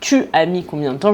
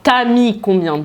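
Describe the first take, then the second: First: The vowel of 'tu' is pronounced. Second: The vowel of 'tu' is dropped. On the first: This is the standard, careful form. "au lieu de" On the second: This is casual, informal speech. "j'enlève le « u »"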